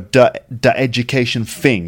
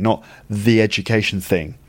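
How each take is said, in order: First: The first word is said like duh. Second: The first word starts with a th sound. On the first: "sometimes he goes duh" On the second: "instead of saying the"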